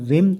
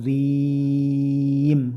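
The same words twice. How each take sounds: First: The vowel is cut short. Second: The vowel is held long. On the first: The speaker calls it wrong. "Jangan sampai membaca zim" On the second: The speaker calls it right. "tapi zim"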